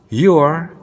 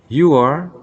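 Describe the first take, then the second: No difference in how they are said.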